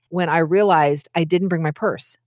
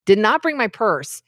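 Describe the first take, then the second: First: Said in the usual way. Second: "not" set apart and pressed, "Did not" said as two full words; stress on not. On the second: Real, not acted. Telling listeners she left her purse, stressing not. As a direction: lean on the "not".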